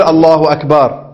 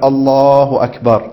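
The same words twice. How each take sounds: First: Slow drawn-out الله أكبر, shown as wrong; wrong takbir. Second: Slow الله أكبر, begun as the hands rise; correct takbir. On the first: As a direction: stretch الله أكبر slowly as the mistake. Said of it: "لا". (تكبير ممدود خاطئ) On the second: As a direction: stretch الله أكبر over the raising of the hands. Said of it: "من بداية الرفع تكبر". (تكبير صحيح ممدود مع رفع اليدين) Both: Shown as a demonstration.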